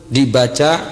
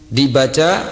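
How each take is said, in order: The two takes are said the same way.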